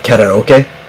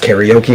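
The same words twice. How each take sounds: First: It is pronounced in the original Japanese way. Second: It is pronounced in the common English way. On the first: The speaker calls it right. "that I tried to say right" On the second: The speaker calls it wrong. "Everybody says karaoke"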